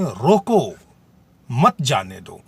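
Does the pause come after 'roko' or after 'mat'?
after roko. There is a pause after 'roko'. It tells someone to stop. "दूसरे वाक्य में रोकने को कहा जा रहा है"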